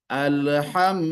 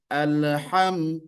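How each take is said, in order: Both takes have the same delivery.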